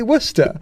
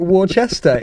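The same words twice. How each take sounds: First: "Worcester" said as WUSS-ter in two syllables; "Worcester" with the middle swallowed, wuss-ter; local-style pronunciation. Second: "Worcester" said as war-CHESS-ter; "Worcester" mangled into war-chester; spelling pronunciation. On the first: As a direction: shorten "Worcester" to wuster. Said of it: "like Polish people pronounce it". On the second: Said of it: "we have to say it". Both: Shown as a demonstration.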